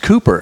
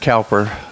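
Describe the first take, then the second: First: The first vowel sounds like 'coo'. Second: The first vowel sounds like 'cow'. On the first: The speaker calls it right. "it's pronounced Cooper if you're from England" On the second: The speaker calls it wrong. "I used to pronounce it Cowper"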